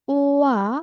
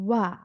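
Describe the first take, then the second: First: The two vowels are said as separate sounds. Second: The two vowels are blended into one syllable. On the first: "Ini dibacanya kan sebenarnya UA" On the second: "Dia menjadi wa kayak melebur gitu ya"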